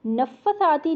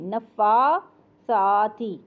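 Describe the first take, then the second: First: नफ़्फ़ासाती with a short fa; wrong length. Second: नफ़्फ़ासाती with fa and sa equally long, slow; correct length. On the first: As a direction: rush the fa in नफ़्फ़ासाती. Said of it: "नहीं पढ़ेंगे". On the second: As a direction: stretch fa and sa equally. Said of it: "उतना ही फ़ा भी लंबा". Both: Shown as a demonstration.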